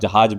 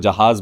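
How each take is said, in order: First: The last consonant is a j sound. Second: The last consonant is a buzzing z sound. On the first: The speaker calls it wrong. "अगर आप जहाज बोल देंगे" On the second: The speaker calls it right. "नुक्ता लगा रहे हैं उर्दू शब्द में"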